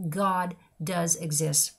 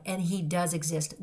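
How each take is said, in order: First: "God does exist" drawn out very slowly, weight on "God"; slow it right down and let "God" land; slow emphatic. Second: "does" leaned on, steady pace; stress on does. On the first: Repeating to listeners that God exists, slow and weighty. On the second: Assuring listeners he does exist, stress on "does". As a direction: press the word "does" to insist. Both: Real, not acted.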